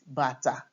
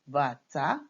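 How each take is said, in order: First: Both syllables are on the same low pitch. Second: The second syllable is higher than the first. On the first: It means shoe. "do, do" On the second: It means drum. "do, mi"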